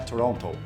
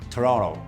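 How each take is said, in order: First: The second T is clearly pronounced. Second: The second T is dropped. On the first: The speaker is a foreigner. The speaker calls it wrong. "o gringo fala Toronto" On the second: The speaker is a local. The speaker calls it right. "ele não pronuncia esse último T"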